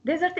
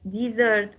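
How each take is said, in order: First: "Desert" as a noun, DEZ-ert; stress on first syllable. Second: "Desert" as a verb, di-ZERT; stress on second syllable. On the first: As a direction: hit the Des of "Desert". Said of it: "Desert is a noun". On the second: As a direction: lean on the sert of "Desert". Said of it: "what about the verb desert". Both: Shown as a demonstration.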